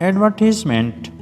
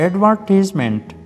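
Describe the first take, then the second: The two takes are said the same way.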